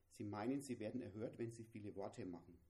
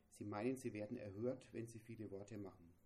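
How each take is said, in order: Both takes have the same delivery.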